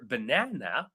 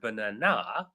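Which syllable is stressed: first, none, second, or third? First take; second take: second; third. First: The stress is on the second syllable. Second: The stress is on the third syllable. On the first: The speaker calls it right. "It's number two" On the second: The speaker calls it wrong. "syllable three"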